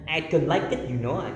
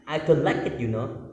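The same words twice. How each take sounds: First: Mock Indonesian-accented English, a little higher; clunky Indonesian-accented I don't like it; heavy local accent. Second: Mock Indonesian-accented English again; clunky local-accent I don't like it, you know; heavy local accent. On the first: Showing students an unpleasant-sounding local accent. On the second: Repeating the unpleasant accent example to listeners. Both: Shown as a demonstration. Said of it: "Kayak gitu kan gak enak ya".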